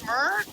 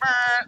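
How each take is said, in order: First: It sounds like a mellow horn, rising like a question. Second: It sounds like a harsh, blunt horn honk.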